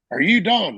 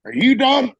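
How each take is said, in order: First: Said in the usual way. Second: High loud bark of a question; shouted demand. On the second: Retold or imitated. Gunny yelling at the lance corporal, high and loud.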